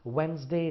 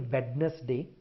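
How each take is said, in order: First: It is said with a neutral pronunciation. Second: It is said with an Indian-influenced pronunciation. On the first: The speaker calls it right. "if you could slightly change it to Wednesday, it will be better" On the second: The speaker calls it wrong. "I hear people say Wednesday"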